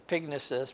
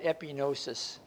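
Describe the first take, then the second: First: A g sound is heard before the n. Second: No g sound is heard before the n. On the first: The speaker calls it right. "The correct pronunciation is epignosis" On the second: The speaker calls it wrong. "I always pronounce that epinosis"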